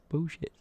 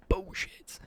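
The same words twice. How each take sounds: First: Said in the usual way. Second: Higher-pitched catchphrase, lightly imitated; Carl Pilkington. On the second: Streamer doubting a viewer's pack claim, light catchphrase impression. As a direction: draw it out as a quoted catchphrase. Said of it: "Carl Pilkington line".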